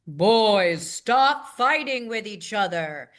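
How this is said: It is spoken at a low pitch. "I would go down in a pitch"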